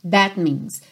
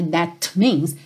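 First: The final T of that is not heard. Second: The final T of that is clearly released. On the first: The speaker calls it right. "não ouve o T final do that" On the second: The speaker calls it wrong. "Não é"

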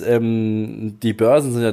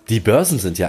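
First: It is said in a grim, unfriendly tone. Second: It is said in a friendlier, nicer tone. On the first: The speaker calls it wrong. "Kannst du bitte ein bisschen netter klingen?" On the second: The speaker calls it right. "ein bisschen netter klingen"

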